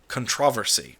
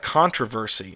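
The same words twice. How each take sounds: First: It is said the British way. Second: It is said the American way. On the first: "they have controversy. I think that's the way they say it" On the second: "we have controversy"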